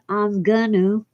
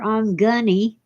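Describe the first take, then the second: First: The phrase is reduced to 'I'm gonna'. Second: The phrase is reduced to 'I'm gunny'. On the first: "is not I'm gonna" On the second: "or I'm gunny"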